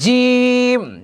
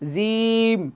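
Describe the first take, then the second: First: The j sound is firm and strong. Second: The j sound is soft and weak. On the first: The speaker calls it right. "শক্ত হবে, একটু শক্ত হবে।" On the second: The speaker calls it wrong. "অনেকে আমরা এভাবে বলি জিম, জিম, তখন পরিপূর্ণ উচ্চারণটা হয় না।"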